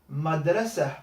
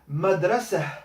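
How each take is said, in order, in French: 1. Le mot se termine par un son h doux. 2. Le mot se termine par un son h doux.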